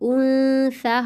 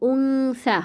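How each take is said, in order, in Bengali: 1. n হলো হালকা অনুনাসিক, পুরোপুরি বন্ধ না করে। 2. n হলো একটি পূর্ণ, সরাসরি অনুনাসিক ধ্বনি। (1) "হবে" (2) "হবে না"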